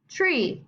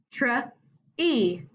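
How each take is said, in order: First: Said in the usual way. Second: "tree" split into tr and long E; tree sounded out. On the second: Shown as a demonstration. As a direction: pause between the blend and long E in "tree". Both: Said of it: "make their long sound".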